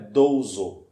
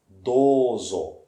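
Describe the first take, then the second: First: The first vowel is not lengthened. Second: The first vowel is clearly lengthened. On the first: The speaker calls it wrong. "Não é douzo" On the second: The speaker calls it right. "o som ele é prolongado"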